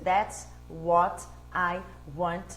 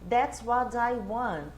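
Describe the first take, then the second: First: The t is a clear, separate t sound. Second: The t sounds like a soft d, linked.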